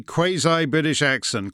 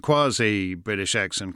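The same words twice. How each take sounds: First: "quasi" with a long AY, ending in EYE; QUASI as kway-zye. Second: "quasi" with an AH, ending in EE; QUASI as kwah-zee. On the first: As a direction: say "quasi" as KWAY-zye, both vowels gliding. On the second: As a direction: say "quasi" as KWAH-zee, open first vowel. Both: Shown as a demonstration. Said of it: "which is the quasi-British way to say it".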